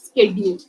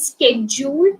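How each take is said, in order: First: It is said in an Indian English accent. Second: It starts with a 'sk' sound. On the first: "Indians do pronounce it as schedule ... that is actually wrong" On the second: "schedule എന്നാണ് American English"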